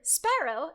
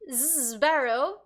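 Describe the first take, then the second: First: The word starts with a voiceless s then p. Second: The word starts with a voiced z then b. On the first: "S P, is really easy" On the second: "Z B, because Z is voiced"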